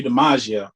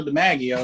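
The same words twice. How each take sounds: First: Officer fumbling the name DiMaggio with a zh sound; mispronounced name. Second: DiMaggio with a short "mag" and a j sound; DiMaggio said his own way, stressed on the middle syllable; correctly pronounced name. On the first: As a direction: say DiMaggio wrongly, as "dee-MAH-zhee-oh". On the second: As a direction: say DiMaggio as "dih-MAJ-ee-oh". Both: Retold or imitated. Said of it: "He pronounced it wrong".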